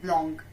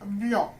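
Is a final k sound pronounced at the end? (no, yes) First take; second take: yes; no. First: The word ends with a final k sound. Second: The word ends with no final k sound. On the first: The speaker calls it wrong. "not blanc" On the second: The speaker calls it right. "we will not pronounce C. It will blanc"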